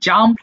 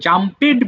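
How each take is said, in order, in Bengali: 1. শেষ অংশটি কোনো অতিরিক্ত সিলেবল যোগ করে না। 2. শেষ অংশটি একটি অতিরিক্ত সিলেবল হিসেবে উচ্চারিত হয়। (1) "জাম্পড হবে" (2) "জাম্পেড বলে ফেলতে পারো"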